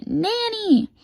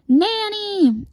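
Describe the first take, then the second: First: Very high, long squealed echo; high drawn-out call; copycat scream. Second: Very high drawn-out cry; piercing high call; scream. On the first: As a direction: mimic the tutor's scream for Nanny. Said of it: "And then I scream". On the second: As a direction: scream out for help from Nanny. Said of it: "And then he screams". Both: A narrator's reading.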